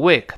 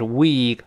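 First: The vowel is short and clipped. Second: The vowel is held long. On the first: The speaker calls it wrong. "不要读week" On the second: The speaker calls it right. "它是week 发长音"

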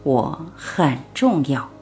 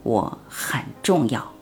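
First: It is said a little louder. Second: It is said quietly, almost whispered.

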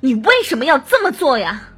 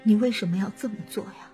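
First: It sounds tense, forceful and full of hatred. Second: It sounds weak, trembling and sorrowful.

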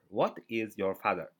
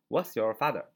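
First: It is said slowly, word by word. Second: It is said fast, with a contraction.

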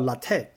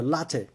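First: The stress is on the second syllable. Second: The stress is on the first syllable. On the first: The speaker calls it wrong. "叫latte 是错的哈" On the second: The speaker calls it right. "重音在前面，叫latte"

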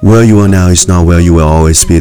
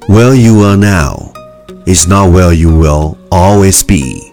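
First: The sentence is spoken very fast in one breath. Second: The sentence is spoken at a normal pace.

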